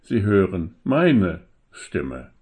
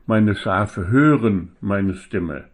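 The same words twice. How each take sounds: First: Meine weighted, slow and falling; stress on meine. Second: Hören leaned on, slow and falling; stress on hören. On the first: Preacher to congregation offering another reading, stress on meine. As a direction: lean into meine, not hören. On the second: Preacher to congregation on the shepherd's voice, stress on hören. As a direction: press on hören, let meine Stimme settle. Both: Shown as a demonstration. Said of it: "die Betonung könnte man auch darauf legen".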